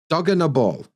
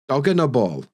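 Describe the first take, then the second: First: The middle words blend into a quick unna. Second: The middle words blend into a quick unna.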